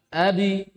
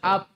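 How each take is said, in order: First: The final b's release leans toward an i vowel. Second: A glottal catch is added after the final b. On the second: "ada tambahan huruf hamzah"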